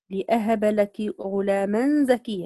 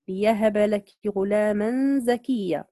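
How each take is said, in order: First: لأهب as "li-'ahaba", glottal stop after li; recited with hamza. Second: ليهب as "li-yahaba", in slow recitation; recited with ya. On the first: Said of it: "قرأ بالهمز". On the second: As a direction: recite slowly, with y replacing the hamza in ليهب. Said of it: "بالياء". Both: Shown as a demonstration.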